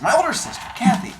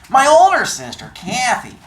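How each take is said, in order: First: It is said in an ordinary adult voice. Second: It is said in a put-on teenager's voice.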